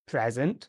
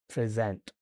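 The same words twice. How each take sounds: First: The stress is on the first syllable. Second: The stress is on the second syllable. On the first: It is a noun. "the noun present" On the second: It is a verb. "the verb present"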